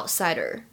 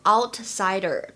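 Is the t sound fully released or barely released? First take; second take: barely released; fully released. First: The t sound is barely released. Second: The t sound is fully released. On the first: The speaker calls it right. "明显有一个不完全失去爆破的现象" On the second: The speaker calls it wrong. "我没有把它读成outsider"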